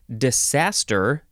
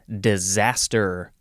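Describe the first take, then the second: First: The middle consonant is a hissing S sound. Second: The middle consonant is a buzzing Z sound.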